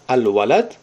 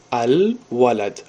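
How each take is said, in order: First: Said in the usual way. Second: "ал-валад" said very slowly, "ал" clearly sounded; slow careful al. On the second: Shown as a demonstration. Teacher showing students the sounded al, very slow. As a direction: spell out "ал-валад" slowly so the al is heard. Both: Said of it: "Ал аҳамият битан, яъне талаффуз мекунем".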